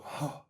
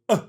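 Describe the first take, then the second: First: The vowel starts with a puff of breath. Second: The vowel starts with a hard glottal pop. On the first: "The aspirate onset is if you go" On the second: "A glottal onset is when you go"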